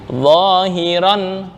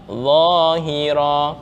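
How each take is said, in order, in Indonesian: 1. Kata ini diakhiri dengan bunyi n. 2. Kata ini diakhiri dengan vokal a panjang. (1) "kemarin ada kaidah tanwin fathah" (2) "ketika diwakafkan maka tak harokat fathahnya tetap, nunnya diganti alif"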